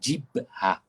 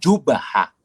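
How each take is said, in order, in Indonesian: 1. Vokal pertama adalah i. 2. Vokal pertama adalah u. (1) "Maka jangan dibaca jibhah" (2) "Jangan dibaca dengan jubhah"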